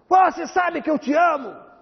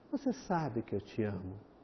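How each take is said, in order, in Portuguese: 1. É dito com uma voz áspera e impositiva. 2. É dito com uma voz gentil e suave. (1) "com essa voz, com essa imposição" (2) "Isso produz um relaxamento"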